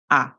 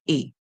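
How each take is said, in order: First: The vowel is a short sound. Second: The vowel is a long sound. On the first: The speaker calls it right. "We're going to use a short sound" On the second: The speaker calls it wrong. "We don't say a"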